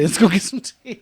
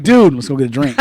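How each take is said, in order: First: Mock gentleman. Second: Loud casual dude bro voice. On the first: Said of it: "call my homeboy darling". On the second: Retold or imitated. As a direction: talk like you do to your boys. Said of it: "I'm not gonna say it to my homeboy".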